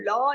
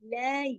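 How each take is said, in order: First: The syllable is heavy, with a rounded, deep vowel. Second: The syllable is thin, with a light, open vowel. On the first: The speaker calls it wrong. "इसको लॉ नहीं करना, मोटा नहीं करना" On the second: The speaker calls it right. "सब बारीक हरूफ है"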